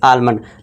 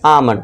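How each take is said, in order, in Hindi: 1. L की आवाज़ साफ़ बोली जाती है। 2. L की आवाज़ छोड़ दी जाती है। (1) "नॉर्मली क्या होता है दोस्त हमारे क्या पढ़ते हैं इसे आलमंड" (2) "इसे आपसे क्या पढ़ना है आपको"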